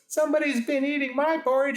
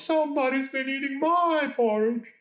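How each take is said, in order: First: It is said in a grumbling, sulky voice. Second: It is said in a moaning, plaintive voice.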